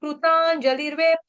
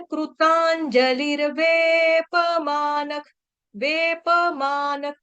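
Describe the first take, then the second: First: कृतांजलिर्वेप with the प said half, clipped; teacher demonstrates the wrong way. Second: कृतांजलिर्वेपमानक with a full प and full म, slow; teacher shows the correct way; right way. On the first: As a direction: show the mistake with a half प. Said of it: "ऐसे बोला जाता है गलती से". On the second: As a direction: say every syllable of वेपमानक fully. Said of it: "फिर कैसे बोलना है?". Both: Shown as a demonstration.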